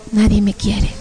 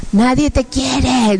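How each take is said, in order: First: Understated, defeated repetition; dejected echo. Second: Slow, drawn-out demonic taunt; horrible demon voice. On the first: Woman echoing the demons' words, dejected. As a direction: repeat the lie as if believing it. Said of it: "empiezo a escuchar mi voz". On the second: Demons telling her she is unloved, horrible voice. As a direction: stretch it out like a tormenting demon. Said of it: "unas voces horribles que decían". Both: Retold or imitated.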